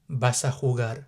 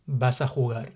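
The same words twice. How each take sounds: The two takes are said the same way.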